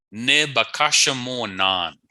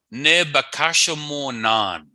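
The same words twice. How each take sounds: First: Said in the usual way. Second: Ne bakasha mo nan said slowly, each syllable clear; slow model word. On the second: Shown as a demonstration. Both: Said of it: "And we swim, or we are swimming".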